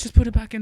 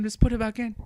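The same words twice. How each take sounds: First: Louder, pushy plea; urgent plea. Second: Said in the usual way. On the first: Acted. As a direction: insist on it, eager.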